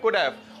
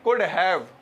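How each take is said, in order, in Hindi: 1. h छूट जाता है, इसलिए यह could've बन जाता है। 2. have में h साफ़ बोला जाता है। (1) "वो लोग ऐसे नहीं बोलते, बोलते हैं could have" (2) "हम बोलते हैं could have"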